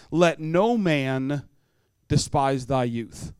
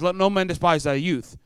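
First: Each word of "Let no man despise thy youth" drawn out slowly; slow solemn verse. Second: Said in the usual way. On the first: Shown as a demonstration. Preacher quoting Timothy to teens, slowly. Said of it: "the verse that I know you've heard". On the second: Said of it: "But he says".

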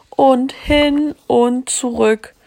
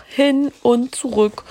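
First: "und hin und zurück" said higher and slow, each word weighted; slow, higher "und hin und zurück" for a child; drawn-out repetition. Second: Said in the usual way. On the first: A narrator's reading. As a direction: stretch "und hin und zurück" to show the endless trips. Repeated trip stressed for effect.

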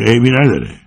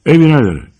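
First: Mocking repeat. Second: Tense retort. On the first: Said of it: "میگه". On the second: Acted. George answers the gunman curtly.

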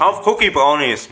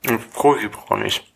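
First: Said again louder and slower; louder repeat. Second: Mumbled through food; chewing while speaking; mouth full. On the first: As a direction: repeat it clearly so they hear. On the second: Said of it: "Ich versteh dich". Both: Real, not acted.

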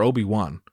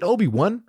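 First: "Obi-Wan" ending like the name Juan. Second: "Obi-Wan" ending like the number one. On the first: Comedian checks how the name is pronounced, "Obi-Wan" ending as "Juan". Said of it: "like my Mexican homies". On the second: Comedian checks how the name is pronounced, "Obi-Wan" ending as "one". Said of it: "like the number". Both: Shown as a demonstration.

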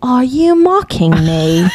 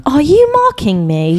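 First: Put-on slow, accented offended question; slow, deadpan suspicious challenge; offended customer. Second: Put-on slow, accented offended question; slow suspicious challenge from the customer. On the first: Retelling the customer's words, slow and offended. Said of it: "dead, like, wasn't even joking". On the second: Upset customer confronting the cashier, slow and offended. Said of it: "she's like".

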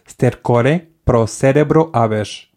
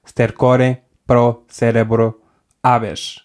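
First: "stercore pro cerebro habes" read very slowly; a careful, slow "stercore pro cerebro habes"; slow Latin demo. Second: "stercore pro cerebro habes" slow with a pause before "habes"; slow, halting "stercore pro cerebro habes"; slow Latin again. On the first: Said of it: "podes dizer". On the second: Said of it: "podem dizer". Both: Shown as a demonstration.

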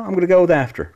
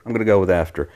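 First: High, loud, mock-grand answer; hammed-up proud reply; emphatic high declaration. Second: Said in the usual way. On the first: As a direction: announce it like a verdict. Answering silly question, emphatic.

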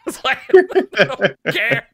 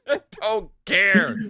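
First: Said through a laugh, louder and slow. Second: Said in the usual way. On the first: Real, not acted. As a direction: laugh out the denial. Laughing while insisting indifference.

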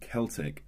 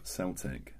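First: "Celtic" said slowly as KEL-tik; hard C. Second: "Celtic" said slowly as SEL-tik; soft C. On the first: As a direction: say "Celtic" with a K sound at the start. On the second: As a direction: say "Celtic" with an S sound at the start. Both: Shown as a demonstration. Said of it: "Why are they pronounced differently but spelled the same?".

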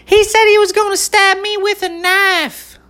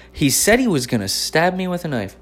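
First: Very high, squeaky mimic of a tattling girl; shrill up-high parody of a classmate telling on him; mock girly accusation. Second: Said in the usual way. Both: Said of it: "She goes".

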